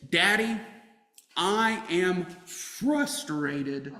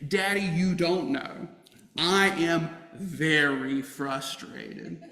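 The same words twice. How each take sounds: First: Put-on slow, drawn-out child's complaint; frustrated daughter quoted, slow and drawn out; imitating a frustrated child. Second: Each word stretched out slowly, I am very frustrated; slower, emphasized. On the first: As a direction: play the tired kid in the back seat. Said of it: "she told me from the back seat". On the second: Retold or imitated. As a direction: lean on every word, slowly. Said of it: "this time slower, emphasizing the words".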